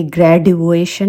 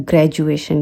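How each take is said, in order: First: "ग्रेजुएशन" said wrongly with a hard d, /ɡrɛɖueʃən/; "ग्रेजुएशन" with the d not turned to j; wrong d sound. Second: "ग्रेजुएशन" said right, the d as j, /ɡred͡ʒueʃən/; "ग्रेजुएशन" with a j before u; correct j sound. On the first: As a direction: demo the wrong way, "ग्रेजुएशन" with a retroflex d. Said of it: "ये ग्रेजुएशन नहीं होता". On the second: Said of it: "ये होता है ग्रेजुएशन". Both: Shown as a demonstration.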